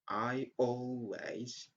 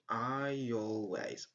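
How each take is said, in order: First: The two words are said without a linking y. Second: A y sound links the two words together. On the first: The speaker calls it wrong. "Instead of saying" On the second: The speaker calls it right. "you could just say"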